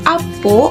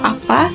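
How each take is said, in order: First: The word ends in an o vowel. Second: The word ends in an a vowel. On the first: It is the everyday village dialect form. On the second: It is the standard Malay form.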